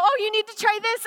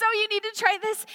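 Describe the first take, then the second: First: Higher, louder, urging her to taste; eager coaxing. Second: Higher, coaxing repeat. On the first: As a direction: push the food on her with glee. Coaxing Carmen to eat more. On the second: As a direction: say it again, still tempting her. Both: Retold or imitated.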